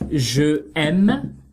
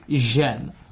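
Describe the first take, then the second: First: The vowel of je is pronounced separately. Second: The vowel of je is dropped and linked. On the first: The speaker calls it wrong. "Instead of je aime" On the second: The speaker calls it right. "remove the e and place an apostrophe"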